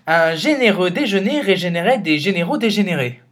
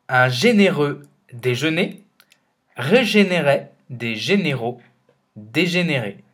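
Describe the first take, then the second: First: The sentence is spoken at a faster pace. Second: The sentence is spoken at a slower pace.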